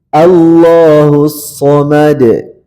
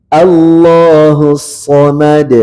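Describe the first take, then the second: No difference in how they are said.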